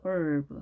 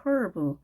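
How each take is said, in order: First: Herb drawn out as "erb"; silent h. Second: Herb with a breathed H at the start; h sounded. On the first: Teacher recalls the last lesson, herb without its H. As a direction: say herb slowly, starting on the vowel with no H. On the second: Teacher recalls the last lesson, herb with its H. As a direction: say herb as "hurb". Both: Shown as a demonstration. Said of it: "herb라고 배웠죠".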